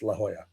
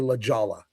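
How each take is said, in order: First: The J is not said like an English J. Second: The J is said like an English J. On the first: The speaker knows the place. The speaker calls it right. "It's La Jolla" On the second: The speaker is not from the area. The speaker calls it wrong. "because that's how it's spelled J O L L A"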